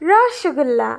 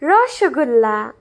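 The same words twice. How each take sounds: No difference in how they are said.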